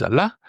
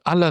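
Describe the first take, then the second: First: Allah said a-LA, final a stressed; stress on final syllable. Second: Allah said A-la, first a stressed; stress on first syllable. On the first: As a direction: hit the end of Allah. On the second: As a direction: lean on the start of Allah. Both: Shown as a demonstration. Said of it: "depending on where the stress is".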